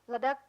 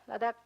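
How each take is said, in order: The two takes are said the same way.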